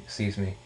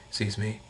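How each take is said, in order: Both takes have the same delivery.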